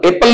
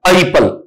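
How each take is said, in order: First: The first vowel is a short 'eh' sound. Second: The first vowel is an 'ai' sound. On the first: The speaker calls it wrong. "एप्पल नहीं होता है" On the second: The speaker calls it right. "यहां आई sound है"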